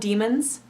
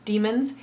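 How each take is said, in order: First: The second syllable has a weak 'uh' vowel. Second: The same.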